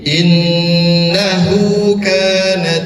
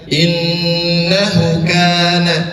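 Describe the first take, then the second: First: The vowel after the h is held two beats. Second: The vowel after the h is short. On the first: The speaker calls it right. "dipanjangkan dua harokat" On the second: The speaker calls it wrong.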